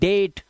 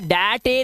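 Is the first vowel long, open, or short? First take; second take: long; open. First: Long 'ay' vowel, final e silent. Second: Open 'ae' first vowel, final e sounded. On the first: The speaker calls it right. "इसे पढ़ते हैं सिर्फ डेट" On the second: The speaker calls it wrong. "या डैटे नहीं पढ़ते"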